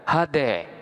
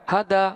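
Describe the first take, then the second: First: The final vowel is tilted toward an 'e' sound. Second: The final vowel is an open 'a' sound. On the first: "boleh dibaca dengan imalah sehingga hada boleh dibaca dengan hade" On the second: "hada boleh dibaca dengan hade"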